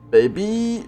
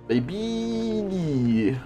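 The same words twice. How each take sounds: First: The word is said short and clipped. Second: The word is said long and drawn out. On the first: The speaker calls it wrong. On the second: The speaker calls it right. "Baby uzun olması lazım"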